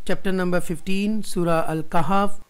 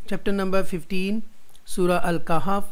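The two takes are said the same way.

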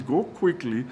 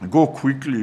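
First: Said in the usual way. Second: Louder, pressing urgency; urgent command. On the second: Retold or imitated. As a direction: hurry them out the door with it. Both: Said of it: "There was urgency".

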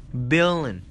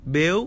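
First: "Billion." complete, with the N added and a falling end; full word. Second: "Bill." clipped short, with a small rise; first syllable alone. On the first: Teacher adding the N for students, full word demo. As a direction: finish the word with the N. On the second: Teacher breaking billion into parts for students, syllable demo. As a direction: say just "Bill" as a building block. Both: Shown as a demonstration. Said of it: "các bạn thêm chữ N vào".

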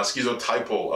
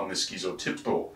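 First: "schizotypal" said skit-so-TY-pal, the short correct form; self-correction landing on "schizotypal"; corrected word. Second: "schizotypical" said skee-zo-TIP-ical, the wrong long form; unsure reading of "schizotypical" with the extra syllable; mispronounced. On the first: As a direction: fix it to "schizotypal", three clear beats. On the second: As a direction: say "schizotypical" as if that were the right word. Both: Real, not acted. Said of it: "I feel like I'm saying that wrong".

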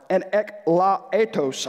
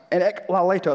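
First: Eklaletos stumbled and slowed; struggling to pronounce. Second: Eklaletos said quicker with more confidence; second try at the word. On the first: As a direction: sound out eklaletos slowly, unsure. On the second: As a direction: get eklaletos out in one go. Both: Real, not acted. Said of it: "I cannot say that word".

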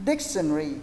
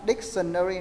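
First: Dictionary squeezed into three syllables, dik-shun-ree. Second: Dictionary drawn out as dik-sun-nuh-ree; four-syllable dictionary. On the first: Shown as a demonstration. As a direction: drop the vowel before the final "ry" in "dictionary". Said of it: "có ba âm". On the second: Retold or imitated. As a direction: mimic the learners' four-beat "dictionary" with "nơ-ri". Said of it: "là bốn âm".

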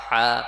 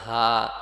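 First: Loud হা with a constricted Arabic throat h; emphatic, held pharyngeal হা; tight throat হা. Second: Plain breath-like h in হা, held long; light throat হা. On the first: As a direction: squeeze the h of হা from mid-throat. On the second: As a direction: say হা as the lighter of two h sounds. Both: Shown as a demonstration. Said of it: "এদের পার্থক্যটা আমাদের করতে হবে".

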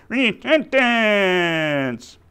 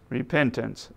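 First: High, very drawn-out puppet shout; long, high puppet cry, sliding down; puppet character. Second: Said in the usual way. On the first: Acted. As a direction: holler the word slowly as a puppet. Puppet finally says the right word.

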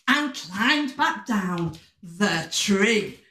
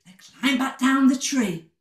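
First: Slow, drawn-out storytelling; slow narration. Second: Said in the usual way. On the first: A narrator's reading. Storyteller as the friends come down, slow and drawn out. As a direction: stretch out the descent, word by word. First telling, drawn out for children.

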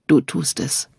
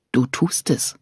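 First: "Du tust es" said gently aloud; husband repeating it tenderly. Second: Husband whispering reassurance. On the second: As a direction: breathe it, barely voiced. Repeated tender reply. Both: Acted.

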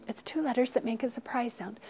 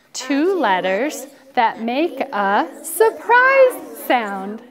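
First: Said in the usual way. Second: Slow, emphatic class chant; drawn-out rule with a big "surprise"; group recitation. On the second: Shown as a demonstration. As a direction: lead everyone word by word, loudly.

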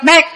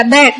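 First: "bed" left open, the last consonant missing; no final consonant. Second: "bed" with the last D released audibly; sounded final D. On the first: Teacher testing listeners, "bed" with its ending dropped. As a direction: say "bed" without sounding the D. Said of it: "Không, bởi vì không có âm cuối". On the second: Teacher correcting the slip, "bed" with its final D sounded. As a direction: let the D of "bed" ring out. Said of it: "bởi vì không có âm cuối". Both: Shown as a demonstration.

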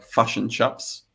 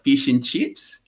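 First: Fush and chups with clipped Kiwi vowels; broad Kiwi accent. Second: Fish and chips with stretched Australian vowels; Australian accent. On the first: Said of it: "the most Kiwi version is". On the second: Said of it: "the most Australian version is". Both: Shown as a demonstration.

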